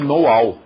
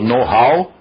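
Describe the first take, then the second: First: The h at the start of how is dropped. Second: The h at the start of how is heard.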